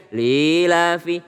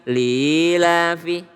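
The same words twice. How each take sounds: No difference in how they are said.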